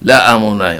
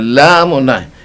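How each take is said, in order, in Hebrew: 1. האלף נהגית אחרי התחילית. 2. האלף שקטה, מתמזגת עם התחילית. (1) "לא אומרים" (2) "אומרים"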